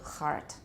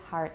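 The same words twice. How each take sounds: First: The h is a harsh, scraping friction sound. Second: The h is a soft breath without friction. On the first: The speaker calls it wrong. "It often happens among some Taiwanese speakers that they say heart" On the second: The speaker calls it right. "It's just heart and her"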